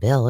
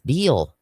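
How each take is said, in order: First: The name rhymes with fill. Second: The name rhymes with feel. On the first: The speaker calls it wrong. "you said it wrong. It's not Bill" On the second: The speaker calls it right. "it's Beal"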